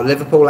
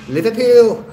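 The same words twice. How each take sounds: First: Said in the usual way. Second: "Liverpool!" exclaimed in a broad Liverpool accent, much higher and louder. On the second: Shown as a demonstration. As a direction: show off the one Liverpool word you can do, in a Liverpool accent. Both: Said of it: "the only word I can say in a Liverpool accent".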